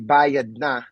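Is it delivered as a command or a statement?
command. It is delivered as an urging command. The listener must pay now. "that means you have to pay now"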